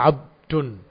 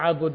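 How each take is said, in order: First: The b is followed directly by d, no vowel. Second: The b is followed by an u vowel. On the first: "disukunkan di ba-nya" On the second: "dibaca abud bidhammiha"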